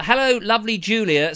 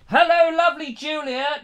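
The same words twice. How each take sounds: First: Said in the usual way. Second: High sing-out to someone not listening; calling to her. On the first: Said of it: "says Nikki Jess". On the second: Pretend. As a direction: relay it in a high, coaxing call. Relaying the message to sleeping Julia.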